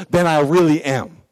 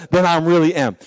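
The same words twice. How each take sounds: The two takes are said the same way.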